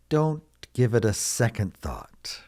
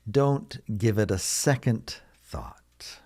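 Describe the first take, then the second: First: Said in the usual way. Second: Slow, spaced-out "Don't give it a second thought"; slow model repeat. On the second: Shown as a demonstration. Teacher repeats phrase slowly for learners.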